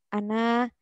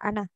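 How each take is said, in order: First: The final vowel is lengthened to two beats. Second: The final vowel is short, not lengthened. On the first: The reading stops on this word. "bila wakof ada huruf mad alif yang dibaca dua harokat" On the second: The word is joined to the next word. "ana tidak dipa- tidak dipanjangkan sama sekali"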